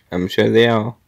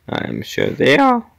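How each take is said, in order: First: Said in the usual way. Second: Voice crack. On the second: Real, not acted. Player agreeing the gorillas are very strong, voice cracking. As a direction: voice cracks upward on the last word. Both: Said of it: "Oh, voice crack".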